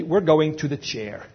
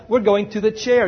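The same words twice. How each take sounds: First: Slow, ominous "We're going to the chair"; "chair" said darkly, like the electric chair; ominous slow line. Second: Ominous "We're going to the chair" with a lift on "We're"; "We're going to the chair" with dark weight on "chair"; ominous repeat. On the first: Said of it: "And she said it like that". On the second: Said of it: "And she said it like that, you know". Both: Retold or imitated.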